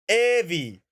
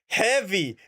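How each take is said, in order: First: The word starts without any H sound. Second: The word starts with a clear H sound. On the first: The speaker calls it wrong. "It's not" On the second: The speaker calls it right. "there is an H in there, motherfucker. Speak it"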